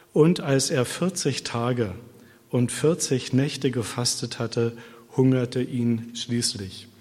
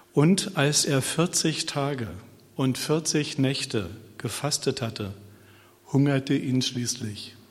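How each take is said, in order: Both takes have the same delivery.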